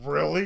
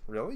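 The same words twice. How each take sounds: First: It sounds accusing and confrontational. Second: It sounds friendly and genuinely surprised. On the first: The listener is judged for not knowing. The speaker calls it wrong. "I'm not coming at you like that" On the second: The speaker is simply surprised and encouraging. The speaker calls it right. "not like that. I'm just saying"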